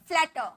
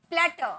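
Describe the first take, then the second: Both takes have the same delivery.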